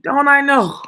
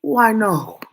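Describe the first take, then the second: First: Higher, louder rhetorical cry; emphatic rhetorical shout. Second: Loud, knowing exclamation; emphatic loud I know. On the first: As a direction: shout it out as if it's obvious. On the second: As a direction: call out that you know it all. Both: Real, not acted.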